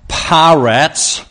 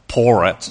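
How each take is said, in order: First: The first vowel sounds like 'a' in parrot. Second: The first vowel sounds like 'or'. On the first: The speaker calls it right. "It's more like parrots" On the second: The speaker calls it wrong. "I think I probably pronounced it something like porrets"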